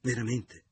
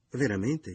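First: "Veramente" said loud and higher with a falling tune, as a doubtful statement; first "Veramente" said louder, higher and falling, half statement; repeated word. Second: "veramente" said louder and higher again, pressed as an anxious question; repeated as question. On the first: Carla doubting Leo, "Veramente" loud and falling. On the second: Carla pressing Leo, "veramente" louder and higher, anxious question. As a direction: push the second "veramente" up into a worried question. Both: A narrator's reading. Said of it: "gli ripeté".

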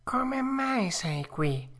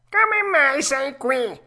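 First: High, slow fox question; drawn-out sly question; fox asking. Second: High, loud cat echo. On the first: Fox asking Pinocchio, slow and high. Fox asks first, cat repeats. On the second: Cat repeating the fox's question, louder. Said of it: "ripeté il gatto". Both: A narrator's reading.

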